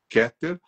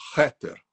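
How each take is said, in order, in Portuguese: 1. A palavra começa com um som de K forte. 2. A palavra começa com um som de H suave, aspirado. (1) "A gente escreve Keter, com K" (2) "mas a gente pronuncia Heter"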